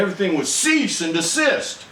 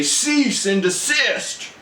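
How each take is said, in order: First: Said in the usual way. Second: Slow, higher stern commanding order; military father order. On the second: Retold or imitated. Father ordering his wrestling sons, a slow stern command. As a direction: bark it like a drill officer to wrestling kids. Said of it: "my father would say".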